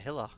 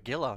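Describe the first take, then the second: First: The word begins with an H sound. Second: The word begins with a hard G sound. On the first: The speaker calls it wrong. "not a Hilla" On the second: The speaker calls it right. "it's also a Gilla"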